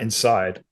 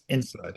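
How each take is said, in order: First: The stress is on the second syllable. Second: The stress is on the first syllable. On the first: The speaker calls it wrong. "Not inside, like you're coming inside" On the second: The speaker calls it right. "Emphasis on the in"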